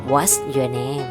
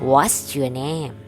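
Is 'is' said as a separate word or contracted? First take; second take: contracted; contracted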